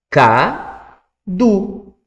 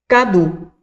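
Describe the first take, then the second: First: Drawn-out word. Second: Said in the usual way. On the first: Shown as a demonstration. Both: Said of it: "o professor vai fazer tudo sozinho".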